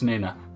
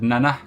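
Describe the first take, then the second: First: The first vowel sounds like 'nee'. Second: The first vowel sounds like 'nah'. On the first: The speaker calls it right. "it's Nina" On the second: The speaker calls it wrong. "I've always said Nana, and it's not"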